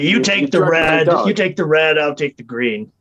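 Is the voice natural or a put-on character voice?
put-on. It is said in a put-on character voice. The speaker calls it wrong. "I changed my voice again. I started using that voice"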